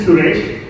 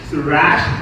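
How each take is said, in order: First: The last syllable sounds like 'resh'. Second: The last syllable sounds like 'rash'. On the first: The speaker calls it right. "It's actually Suresh" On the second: The speaker calls it wrong. "people at work say my name wrong all the time"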